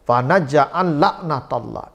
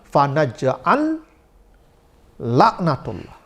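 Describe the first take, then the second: First: The two L sounds merge into one. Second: The two L sounds are pronounced separately. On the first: The speaker calls it right. "Ini seperti satu huruf" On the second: The speaker calls it wrong. "Padahal ada lam"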